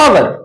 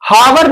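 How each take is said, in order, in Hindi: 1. इस शब्द की शुरुआत स्वर से होती है, h साइलेंट है। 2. इस शब्द की शुरुआत में h की आवाज़ सुनाई देती है। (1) "स्वर से उच्चारण है" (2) "इसको हावर नहीं पढ़ना... गलत हो जाएगा"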